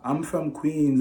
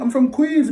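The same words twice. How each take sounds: First: The voice is soft and timid. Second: The voice is firm and assertive. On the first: The speaker seems afraid. The speaker calls it wrong. "even though you use a soft tonality now, makes you look like a coward still" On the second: The speaker seems unafraid. The speaker calls it right. "You match his tonality"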